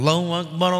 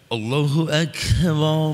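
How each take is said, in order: First: It is said lightly and effortlessly. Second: It is said heavily, with strain and hesitation.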